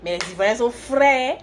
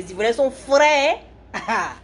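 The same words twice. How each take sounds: First: Said in the usual way. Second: Playful Ivorian accent, high rising finish. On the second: Shown as a demonstration. Livestreamer showing viewers how Ivorians talk, in an Ivorian accent. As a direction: put on an Ivorian accent, louder and higher. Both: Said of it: "Je vais prendre l'accent ivoirien pour parler".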